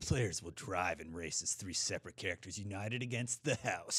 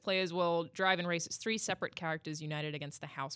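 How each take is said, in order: First: It is said in a movie announcer voice. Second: It is said in a normal reading voice.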